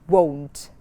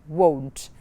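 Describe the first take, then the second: No difference in how they are said.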